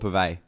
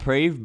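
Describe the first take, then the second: First: The name begins with a 'pur' sound. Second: The name begins with a clear 'preh' sound. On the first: This is how the name is said in Australia. "in Australia they actually call it Purvey" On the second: This is how the name is said in Malaysia. "in Malaysia they call it Prev"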